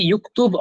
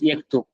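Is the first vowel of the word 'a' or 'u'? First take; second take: u; a. First: The first vowel is a rounded 'u' sound. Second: The first vowel is an open 'a' sound. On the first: This is a spoken dialect form. "But could be युक्तुब" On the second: This is the formal standard form. "Would be pronounced as यक्तुब in modern standard"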